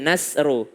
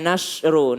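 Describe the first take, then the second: First: The middle consonant sounds like s. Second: The middle consonant sounds like sh. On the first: The speaker calls it right. "sin lebih dekat kepada sin" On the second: The speaker calls it wrong. "dibaca Latinnya sh, dia bacanya nasru"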